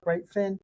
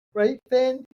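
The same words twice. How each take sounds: First: Said in the usual way. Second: High, louder sing-song to the dog; playful high doggy talk; high pet talk. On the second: Real, not acted. Asking the dog again, pet talk.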